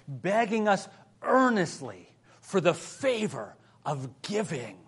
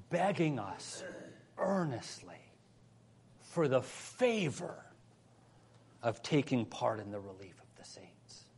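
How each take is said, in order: First: "earnestly" and "favor" lifted and stressed; emphatic restatement. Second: Soft reading with long pauses between phrases; measured scripture reading. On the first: Preacher restating the verse on giving, stressing "earnestly" and "favor". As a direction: drive home "earnestly" and "favor", then set "giving" apart. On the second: Preacher reading verse four to the church, measured and soft. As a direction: read the verse quietly, letting each phrase settle. Reads verse, then repeats it emphatically. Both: Real, not acted.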